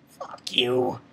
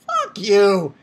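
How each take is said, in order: First: Low, whispered contempt; hushed, disgusted swearing; whispered curse. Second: Emphatic, fully voiced swearing; open, scornful curse. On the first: Retold or imitated. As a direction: whisper it under your breath. Repeated curse, first whispered. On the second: Same curse repeated, voiced louder.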